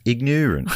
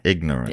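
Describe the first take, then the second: First: It is said in an Indiana accent. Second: It is said in his usual accent.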